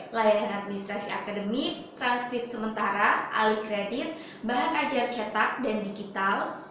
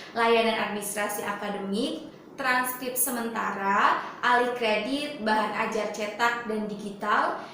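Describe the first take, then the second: Both takes have the same delivery.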